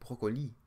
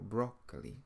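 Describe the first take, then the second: First: The stress is on the last syllable. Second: The stress is on the first syllable. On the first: "In French you would say broccoli, broccoli. So you stress the last syllable" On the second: "in English we say broccoli, and so we stress the first syllable"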